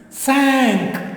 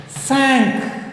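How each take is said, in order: First: The word sounds like English 'sank'. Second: The same.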